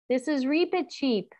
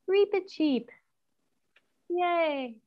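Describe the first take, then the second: First: Said in the usual way. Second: High squeaky mouse-like Reepicheep. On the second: Shown as a demonstration. Teacher to class, naming the mouse in a high squeak. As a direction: say his name like a tiny mouse would.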